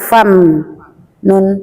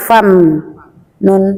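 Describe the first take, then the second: First: The m stops dead with the lips closed. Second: The m stops dead with the lips closed.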